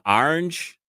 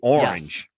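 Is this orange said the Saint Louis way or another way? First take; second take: Saint Louis; another way. First: It is said in a local Saint Louis accent. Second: It is said in a different, non-local accent. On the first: This is how some local people say it. "someone in Saint Louis would say like kind of an orange" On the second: This is how the speaker personally says it. "but I say"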